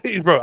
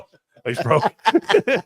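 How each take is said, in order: First: "broke" said through a laugh, a bit louder; cracking up at his own tease. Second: Slow, stretched "broke", a bit louder and higher; mock pity, dragging the word out; drawn-out tease. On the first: Real, not acted. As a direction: laugh it out as the joke lands. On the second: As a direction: drag out "broke" like a playful jab. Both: Teasing Mike about buying beers.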